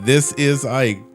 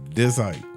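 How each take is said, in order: First: Every word, including 'is', is clearly said. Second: The word 'is' is dropped and merged away.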